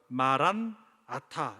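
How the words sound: The word is split after 'maran'. It declares that the Lord is coming. "마란 아타 이렇게 읽으면"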